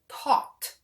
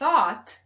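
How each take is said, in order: First: The word begins with a hard t sound. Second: The word begins with a soft th sound. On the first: The speaker calls it wrong. "people who say taught, you would be wrong" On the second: The speaker calls it right. "instead of uh, um, thought"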